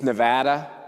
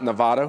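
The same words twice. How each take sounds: First: Nevada is said with the local pronunciation. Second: Nevada is said with an outsider's pronunciation. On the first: This is how the state's own people say it. The speaker calls it right. "it's Nevada" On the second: This is how outsiders from New York say it. The speaker calls it wrong. "It's not Nevada. ... They live in Manhattan, New York"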